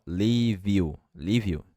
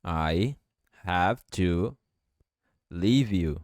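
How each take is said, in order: First: "leave you" as "lee vyou", no final E; "leave you" run together with no E sound; V joined to you. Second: Each word set apart, slow; word by word, robotic; "I have to leave you" in slow separate words. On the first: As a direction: link the V straight into "you". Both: Shown as a demonstration. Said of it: "Eu posso juntar o V com o you".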